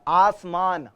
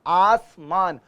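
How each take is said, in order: No difference in how they are said.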